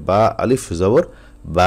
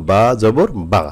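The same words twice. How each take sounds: First: Final বা held long; one-alif stretch. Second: Final বা short, without lengthening; no stretch. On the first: Teacher shows students the madd letter, long-held বা. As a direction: draw out the vowel of the last বা. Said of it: "এখানে এক আলিফ টান দিতে হবে". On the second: Teacher shows students the short vowel, unstretched বা. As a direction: say বা quickly and stop. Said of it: "কোনো টান হবে না কিন্তু এখানে". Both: Shown as a demonstration.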